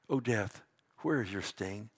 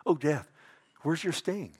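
First: Low, soft reading of the challenge; solemn taunt. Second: Lightly taunting, livelier question; mocking. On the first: Acted. Preacher reads Paul's words to death, low and solemn. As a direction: ask it quietly and gravely, pitched down. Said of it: "Do you know that Paul is mocking death". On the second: Preacher shows how Paul mocks death, mildly taunting. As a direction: needle death with a mild mocking lilt. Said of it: "He's mocking it".

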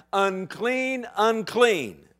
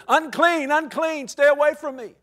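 First: Said in the usual way. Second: Higher, louder warning cry; leper yelling. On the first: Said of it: "cry, 'Unclean". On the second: Acted. Outcast leper warning passers-by, yelled out. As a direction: call it out across the distance. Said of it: "He has to yell out".

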